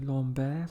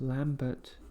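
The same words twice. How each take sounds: First: The name has a Swiss-style pronunciation. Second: The name has an English pronunciation. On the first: The speaker calls it right. "I'm sure that's not how his name was pronounced, so probably Lambert, something like that" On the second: The speaker calls it wrong. "In British, we would probably pronounce it as Lambert"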